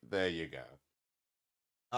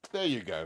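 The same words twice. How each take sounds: First: Very slow drawn out. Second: Said in the usual way. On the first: Shown as a demonstration. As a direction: stretch There you go out slowly.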